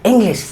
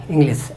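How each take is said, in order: First: "इंग्लिश" with the mouth rolled round the first syllable; correct pronunciation. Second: "इंग्लिश" flatly as "inglis", ending in s; wrong pronunciation. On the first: Teacher modelling for learners, correct "इंग्लिश" with rolled vowels. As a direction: say "इंग्लिश" with a turned, English-style glide. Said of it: "एकदम घुमा फिरा के". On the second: Teacher showing what not to say, wrong "इंग्लिश" as "inglis". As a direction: say "इंग्लिश" unrounded as "ing-lis". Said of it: "ऐसा नहीं". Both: Shown as a demonstration.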